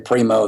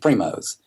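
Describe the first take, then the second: First: The name ends without an S sound. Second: The name ends with an S sound. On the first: The speaker calls it wrong. "People say Primo" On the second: The speaker calls it right. "it has an S on it and it's Primos"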